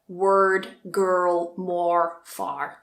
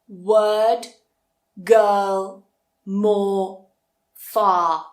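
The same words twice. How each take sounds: First: The R sound is pronounced in each word. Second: The R sound is dropped in each word. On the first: "That sounds a little bit more American" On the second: "then we don't pronounce it"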